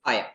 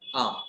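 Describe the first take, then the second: First: Two separate full words, 'eye am'. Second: One merged syllable with a long vowel. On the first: "जब आई के साथ लग जाता है एम तो हम इसे प्रोनाउंस करते हैं आई एम" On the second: "जब आपकी फ्लुएंसी थोड़ी और ज्यादा हो जाएगी तो आप इसे प्रोनाउंस करेंगे आम"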